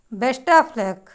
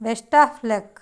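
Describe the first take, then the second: No difference in how they are said.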